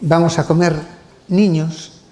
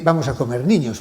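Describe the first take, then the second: First: There is a pause before niños. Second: There is no pause before niños.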